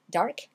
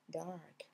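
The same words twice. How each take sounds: First: DARK cut short, A not lengthened. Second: DARK with a long A, lower and softer. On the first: Teacher shows what to avoid, DARK short. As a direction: say dark quickly with a short vowel. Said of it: "c'est pas dark". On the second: Teacher corrects learners, DARK with lengthened A. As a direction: stretch the vowel as in car. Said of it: "on allonge un peu le A". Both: Shown as a demonstration.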